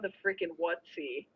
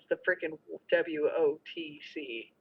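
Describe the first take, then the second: First: The name is said as one short word. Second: The name is spelled out letter by letter. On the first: It sounds less abusive. The speaker calls it wrong. "that doesn't work as good as" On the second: It sounds more abusive. The speaker calls it right. "because I can slow it down"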